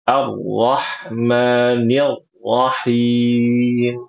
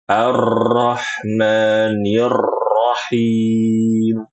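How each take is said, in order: First: The R sound has no trill, just a jolt. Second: The R sound is trilled with excessive vibration. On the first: "Seperti ada hentakan ketika membaca huruf huruf ro yang bertasydid, dan ini keli, keliru" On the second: "ini berlebih berlebihan"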